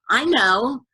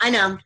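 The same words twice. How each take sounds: First: It is said warmly and empathetically. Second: It is said flippantly and dismissively.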